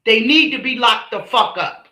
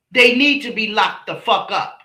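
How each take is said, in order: Both takes have the same delivery.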